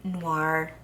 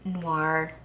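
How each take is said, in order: First: The word has an English pronunciation. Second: The word has an English pronunciation.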